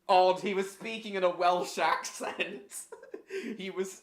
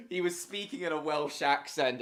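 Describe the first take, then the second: First: Laughing through the words; chuckling while saying it. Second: Said in the usual way. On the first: Real, not acted. Laughing at the clip.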